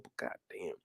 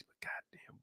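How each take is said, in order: First: Dropped to a much softer mutter; fed-up captain grumbling to himself; muttered curse. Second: "goddamn" whispered, breathy and much softer; fed-up captain hissing his frustration; whispered curse. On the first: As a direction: mutter "goddamn" under the breath, much softer. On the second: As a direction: whisper "but goddamn" to yourself. Captain muttering to himself. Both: Acted.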